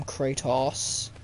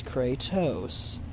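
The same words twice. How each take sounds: First: Kratos ending in an open "awss"; wrong name ending. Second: Kratos ending in a long "ohs"; slow Kratos with a long O; correct name pronunciation. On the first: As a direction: say Kratos as Kray-toss. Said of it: "some people call him Kratos". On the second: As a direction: say Kratos as Kray-tose, slowly. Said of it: "his name is actually pronounced". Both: Shown as a demonstration.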